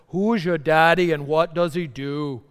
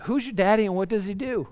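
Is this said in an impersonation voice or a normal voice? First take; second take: impersonation; normal. First: It is said in an impersonated, heavily accented voice. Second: It is said in the speaker's normal voice.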